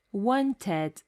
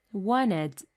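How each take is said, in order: First: Wanted with a clear T, wan-ted; careful wanted. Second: Wanted with the T dropped, wanned; American wanted. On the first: Teacher demonstrating wanted with a full T. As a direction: say wanted with the T sounded. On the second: Teacher demonstrating wanted with a silent T. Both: Shown as a demonstration.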